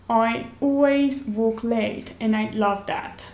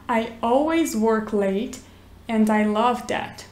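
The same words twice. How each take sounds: First: It is spoken in a British accent. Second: It is spoken in an American accent.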